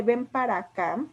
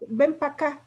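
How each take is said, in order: First: Said in the usual way. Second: Pa' clipped from para, pa' acá run together; casual contraction. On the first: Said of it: "en lugar de". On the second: Shown as a demonstration. Teacher demos the casual form Ven pa' acá, contracted. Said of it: "Cuando decimos".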